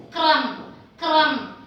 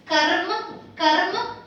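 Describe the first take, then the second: First: "kram" with r straight after the k. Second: "karm" with the r after the vowel, rolled into m; R before M. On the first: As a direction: model "kram", k and r joined before the vowel. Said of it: "R is after the consonant". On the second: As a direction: model "karm", r sounded before the m. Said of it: "want to pronounce R first". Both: Shown as a demonstration.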